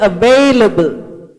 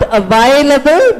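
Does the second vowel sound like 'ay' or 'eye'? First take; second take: ay; eye. First: The second vowel sounds like 'ay'. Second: The second vowel sounds like 'eye'. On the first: The speaker calls it right. "but available. the sound is A" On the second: The speaker calls it wrong. "Not available, The sound is not I"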